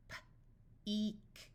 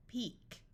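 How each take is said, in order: First: Puffed P, pause, then "eek"; sounded out. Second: Said in the usual way. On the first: Shown as a demonstration. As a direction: break "P-eek" into its sounds slowly. Phonics teacher sounds out, then blends.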